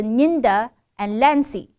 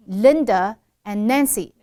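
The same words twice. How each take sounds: First: "Linda and Lancy" said as "Ninda and Lancy"; n opens Linda, l opens Nancy; L and N swapped. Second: "Linda and Nancy" with l, then n; slow, firm l in "Linda", n in "Nancy"; correct L and N. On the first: Teacher showing what not to say, L and N swapped. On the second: Teacher showing names correctly, distinct L and N. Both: Shown as a demonstration. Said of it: "不能变成".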